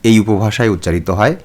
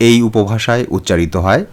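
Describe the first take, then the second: No difference in how they are said.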